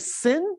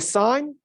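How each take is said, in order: First: The vowel is short, rhyming with 'pin'. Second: The vowel is long, rhyming with 'sign'. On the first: The speaker calls it wrong. "You do not say sin" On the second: The speaker calls it right. "you say sine"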